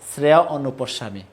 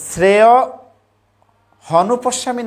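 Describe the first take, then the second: First: The second word begins with a vowel. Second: An h sound begins the second word. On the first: The speaker calls it right. "হবে শ্রেয় অনুপস্বামী" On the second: The speaker calls it wrong. "না হয়ে"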